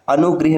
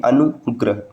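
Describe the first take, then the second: First: अनुग्रह as "anugrih"; wrong form. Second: अनुग्रह as "anugrah"; correct form. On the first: Teacher citing the rejected form, "grih" in अनुग्रह. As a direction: say अनुग्रह with "i" after gr. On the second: Teacher giving the correct form, "grah" in अनुग्रह. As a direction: say अनुग्रह with short "a" after gr. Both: Shown as a demonstration. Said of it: "नहीं".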